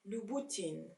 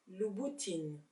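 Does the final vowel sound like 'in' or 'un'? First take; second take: in; in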